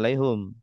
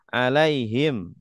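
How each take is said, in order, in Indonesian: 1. Vokal sebelum m terakhir adalah 'u'. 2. Vokal sebelum m terakhir adalah 'i'. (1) "tidak alaihum" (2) "dibaca hi"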